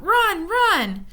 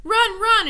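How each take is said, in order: First: High, loud warning cry; distant voice crying a warning; cried out. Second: High, loud urgent shout; distant voice shouting a warning. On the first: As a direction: call out urgently from afar. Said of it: "a voice cried out". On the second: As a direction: yell the warning again. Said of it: "it shouted again". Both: A narrator's reading.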